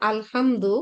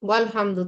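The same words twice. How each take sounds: First: আলহামদু, opening a clearly voiced as al-hamdu; slow teaching demo of আলহামদু with the alif sounded; alif said with zabar. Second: ওয়াল হামদু, wa joined straight onto lam, no alif sound; alif dropped. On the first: Teacher showing students sentence-start আলহামদু, slow and clear. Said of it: "আলিফের উপরে জবর ধরে উচ্চারণ করছি". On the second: Teacher showing students the joined ওয়াল হামদু, alif silent. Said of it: "এই জন্য আমরা বলি ওয়াল হামদু". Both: Shown as a demonstration.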